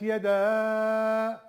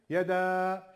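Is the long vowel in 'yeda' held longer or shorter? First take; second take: longer; shorter. First: The long vowel is held for a longer time. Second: The long vowel is held for a shorter time. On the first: "İstersen 4 elif uzat" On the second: "en az 2 elif uzatman lazım"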